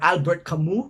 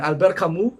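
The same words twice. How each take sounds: First: The name is said with an English pronunciation. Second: The name is said with a French pronunciation. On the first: "in you know English pronunciation" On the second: "in French"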